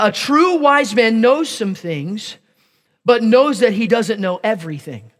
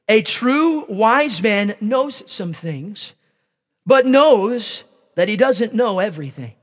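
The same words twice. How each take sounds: First: It is said at a normal speed. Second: It is said slowly and deliberately.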